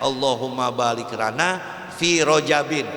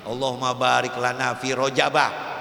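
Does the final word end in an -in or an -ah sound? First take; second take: -in; -ah. First: The last word ends with an -in sound. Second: The last word ends with an -ah sound. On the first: The word is treated as inflecting for case. "kalau mu'rab bacanya" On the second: The word is treated as having a fixed ending. "ada yang bilang juga dia mabni"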